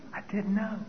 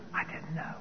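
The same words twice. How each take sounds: First: Quiet aside. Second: Barely audible inner thought; a quiet aside that no one hears; hushed inner confession. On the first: Second inner confession. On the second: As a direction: whisper the secret truth to yourself. Inner confession after the answer. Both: Retold or imitated.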